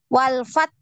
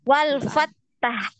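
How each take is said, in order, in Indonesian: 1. Huruf t ditahan, lalu napas keluar. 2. Huruf t dilepas dengan tambahan bunyi vokal. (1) "huruf ta ini tertahan, suaranya tertahan" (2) "Hati-hati ada wal fattah. Ta itu enggak boleh ya"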